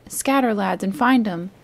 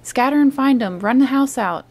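First: Firm command at a moderate level; first order. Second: Much higher and louder repeated order. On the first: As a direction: give the order once, firmly. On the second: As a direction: hammer the order home. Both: A narrator's reading. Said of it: "reiterated Pew".

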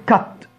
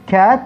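First: كت with a short open "a"; short cut vowel. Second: كات with a long fronted "aa"; long cat vowel. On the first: Teacher contrasting cut with cat, short vowel. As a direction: keep كت short, unlike cat. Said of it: "اللي هو يقطع". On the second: Teacher contrasting cat with cut, long vowel. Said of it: "في فرق ما بين مثلًا القطة". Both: Shown as a demonstration.

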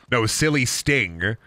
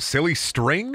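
First: Silly sting without the r. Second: Silly string said with the r. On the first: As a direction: say "silly sting" like the wrestler Sting, slowly. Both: Shown as a demonstration.

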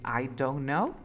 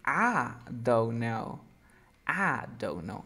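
First: Said in the usual way. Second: "I" said as a long open "ah"; reduced I. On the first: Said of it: "en lugar de decir". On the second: Shown as a demonstration. Teacher showing a student the shortcut, "I" reduced to "ah". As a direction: turn "I don't know" into "ah don't know". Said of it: "¿qué voy a decir?".

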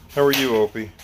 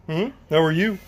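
First: Said in the usual way. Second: Higher, rising greeting to the dog; sing-song pet greeting. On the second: Real, not acted. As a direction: coo the question up to the pet.

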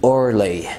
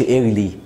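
First: "early" with the er vowel, ur-lee; correct "early". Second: "early" with an ee-ar start, the mistake; the wrong way, "early" said eer-lee; mispronounced "early" with a front vowel. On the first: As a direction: say "early" as urly. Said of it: "قول". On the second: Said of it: "ما تقولش early". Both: Shown as a demonstration.

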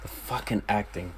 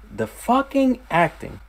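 First: Said in the usual way. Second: "The fucking acting" thrown up high, with "fucking" hit hard; exclaimed in awe. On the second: Shown as a demonstration. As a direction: raise the line into amazed praise.

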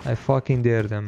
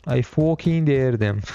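First: Said in the usual way. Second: Put-on slow, drawn-out British accent. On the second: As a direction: put on your best British accent, stretching the words. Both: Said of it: "In his best British accent".

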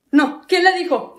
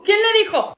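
First: "le" stressed, said slowly and falling; slow, puzzled "¿quién le dijo?" with weight on "le"; first, slower ask. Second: "le" hit higher and falling, pitch jumping up; higher repeat. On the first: Brother asks who told her, slow and falling. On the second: Brother repeats the question, much higher and alarmed. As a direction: shoot the "¿quién le dijo?" up high, stressing "le". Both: Acted.

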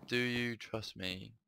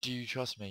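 First: Sad, lonely plea. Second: Said in the usual way. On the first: Acted. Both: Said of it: "a voice of a woman, sad and lonely".

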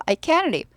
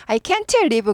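First: Can't said as "kaen", no released T; T dropped. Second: Can't said as "kaen-teu" before live; T fully sounded. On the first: Teacher shows how it really sounds, T dropped. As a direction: run can't into live without the T. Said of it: "그렇지 않고". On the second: Teacher imagines English easy for dictation, T fully sounded. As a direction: sound out every letter of can't, T included. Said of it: "받아적기가 얼마나 편하겠어요". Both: Shown as a demonstration.

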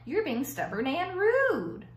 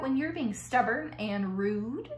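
First: STUBBORN AND RUDE drawn out, falling at the end; slow, emphatic scolding on RUDE; pointed telling-off. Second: STUBBORN AND RUDE rising at the end as a question; pointed reminder. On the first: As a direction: spell it out slowly, landing hard on RUDE. Wife delivers the pointed verdict. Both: A narrator's reading.

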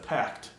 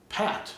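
First: Said in the usual way. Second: Pat, with no K sound; dropping the C in pact. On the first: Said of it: "instead of pact". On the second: Shown as a demonstration. Explaining a slip, pact said as pat. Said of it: "pat instead of pact".

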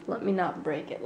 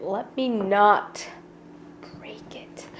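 First: Careful quiet. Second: Careful whisper, trailing off. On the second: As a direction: hush it out nervously. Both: Real, not acted.

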